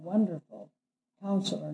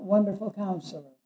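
First: There is a pause after the first word. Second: The two words run together without a pause. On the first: Wonderful and Counselor are two separate titles. The speaker calls it right. "There's a comma after wonderful" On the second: Wonderful only describes the counselor. The speaker calls it wrong. "When people say that, it disturbs me"

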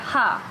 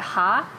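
First: The pitch falls sharply from high to low. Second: The pitch rises from mid to high. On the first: "fourth tone is like" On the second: "second tone is like"

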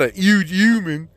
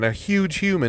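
First: The H sounds at the word starts are dropped. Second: The H sounds at the word starts are pronounced. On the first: The speaker calls it wrong. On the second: The speaker calls it right. "at least fucking enunciate the fucking letters that are in the goddamn word"

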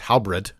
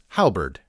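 First: The second syllable sounds like the word bread. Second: The second syllable does not sound like bread. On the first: The speaker calls it wrong. "mispronounced as halberd, as in Hal ate a piece of bread" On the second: The speaker calls it right. "But it is halberd"

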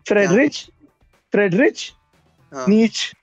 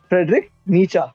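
First: The surname ends in a consonant sound. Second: The surname ends in an open vowel sound. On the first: The speaker calls it wrong. "मैं पता है टाइम से क्या पढ़ रहा था उसे" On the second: The speaker calls it right. "उसका नाम है फ्रेडरिक नीचा"

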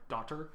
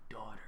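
First: It is said in a Canadian accent. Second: It is said in a New York-like accent.

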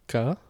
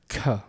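First: The k has no puff of breath. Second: The k has a puff of breath. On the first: "plain voiceless stops, meaning unaspirated" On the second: "the aspirated versions"

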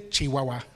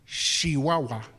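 First: The word begins with a ch sound. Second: The word begins with a sh sound. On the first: This is not how the locals say it. "They don't say Chihuahua" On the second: This is how the locals say it. "with a sh instead of a ch"

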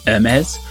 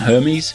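First: The name is said with a French pronunciation. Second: The name is said with an English pronunciation. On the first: The speaker calls it right. "I had to brush up on my pronunciation of Hermès" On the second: The speaker calls it wrong. "which I was told is definitely wrong"

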